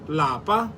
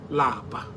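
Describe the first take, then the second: First: The word is said with a high tone. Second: The word is said with a low tone. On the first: It means home. "In higher tone, lapa means home" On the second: It means to be tired. "Lower tone, which lapa. Lapa means to be tired"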